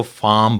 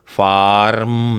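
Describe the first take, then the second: First: फार्म said 'faam' with the r dropped, British style; silent r. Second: फार्म said 'farm' with the r sounded, the wrong way here; rhotic r. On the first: Teacher showing British फार्म without r. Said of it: "फार्म नहीं पढ़ेंगे बल्कि". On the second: Teacher showing which फार्म not to say. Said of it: "नहीं पढ़ेंगे". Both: Shown as a demonstration.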